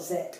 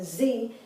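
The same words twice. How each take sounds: First: The letter is said as zed. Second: The letter is said as zee. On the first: "British English, it's called Z" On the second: "American English, this letter is called a Z"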